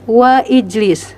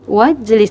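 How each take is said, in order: First: The 'i' vowel is pronounced as a separate sound. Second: The 'i' vowel is dropped, linking straight on. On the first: The speaker calls it wrong. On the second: The speaker calls it right.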